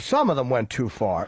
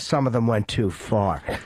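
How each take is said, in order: First: It is said lightly, in a relaxed casual tone. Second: It is said flatly, in a stern serious tone. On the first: It is a mild, offhand remark. "well, you know" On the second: It sounds like an angry complaint. "that comes off as"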